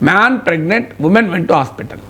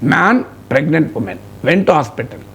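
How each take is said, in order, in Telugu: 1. విరామం 'pregnant' అనే పదం తర్వాత వస్తుంది. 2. విరామం 'man' అనే పదం తర్వాత వస్తుంది. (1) "మీరు ఈ కామాను తీసి ప్రెగ్నెంట్ తర్వాత పెట్టండి" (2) "చదివేటప్పుడు అయితే కామానం కదా"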